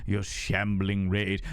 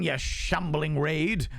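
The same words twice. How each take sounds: First: Slow, drawn-out low pitch; playful low repeat. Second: Slow, drawn-out higher pitch; playful high greeting. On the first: Streamer teasing raiders, playful low repeat. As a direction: drop low and stretch out RAID. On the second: Streamer welcoming raiders, playful high greeting. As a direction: stretch out RAID high and welcoming. Greets raid, repeats it lower. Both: Pretend.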